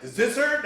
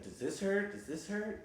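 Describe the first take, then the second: First: Much higher, louder sharp "does this hurt"; doctor yanking the broken toe, asked loud and high; loud question. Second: Said in the usual way. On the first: Retold or imitated. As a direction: jab the question as he yanks the toe.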